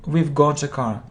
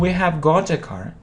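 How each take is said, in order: First: 'We have' is shortened to one syllable. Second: 'We have' is said as two full words.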